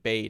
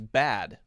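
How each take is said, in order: First: The vowel sounds like the one in made. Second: The vowel sounds like the one in bad. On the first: "we would say made and bade in the same way" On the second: "I believe the British pronunciation is bad, like B A D"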